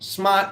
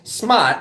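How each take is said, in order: First: It is said with an East Coast accent. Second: The same.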